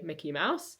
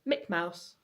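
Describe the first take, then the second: First: Both words are pronounced fully with all sounds. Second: The second syllable of the first word is dropped. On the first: This is the usual adult pronunciation. The speaker calls it right. "we would say Mickey Mouse" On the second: This is how a young child says it. The speaker calls it wrong. "Clark would say Mick Mouse"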